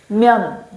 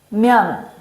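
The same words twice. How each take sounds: The two takes are said the same way.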